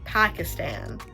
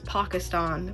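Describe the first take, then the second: First: It is said in the speaker's own accent. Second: It is said the audiobook narrator's way. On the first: "I know for my accent I would say Pakistan" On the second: "the narrator, who is not Malala, pronounces it as Pakistan"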